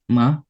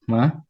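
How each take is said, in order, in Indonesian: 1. Nadanya naik dari awal sampai akhir. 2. Nadanya naik dari awal sampai akhir.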